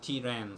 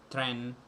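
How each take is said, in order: First: A short vowel separates the t and r. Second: The t and r form a tight cluster. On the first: The speaker calls it right. "they say tiren, so they put e in the middle" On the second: The speaker calls it wrong. "They don't say train, tren"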